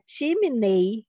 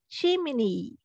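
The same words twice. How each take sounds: First: The final vowel sounds like 'ay'. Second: The final vowel sounds like 'ee'. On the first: The speaker calls it wrong. "As pessoas costumam falar chimney" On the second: The speaker calls it right. "o correto seria a gente falar como som de I"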